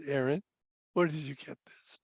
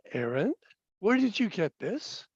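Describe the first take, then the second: First: Hushed, near-whispered question, falling at the end; very soft, low, serious father; lowered stern voice. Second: Softer voice, lifting into a question; soft, probing parental question; gentle questioning father. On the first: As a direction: drop to a low, quiet parental probe. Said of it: "my voice got a little lower". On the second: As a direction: quietly ask your child, tone rising at the end. Father's first, gentle question to son. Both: Retold or imitated.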